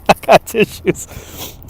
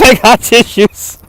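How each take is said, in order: First: Whispered through a laugh, slow; giggling whisper. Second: Said in the usual way. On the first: Real, not acted. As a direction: breathe it out laughing, softer. Joking about crying.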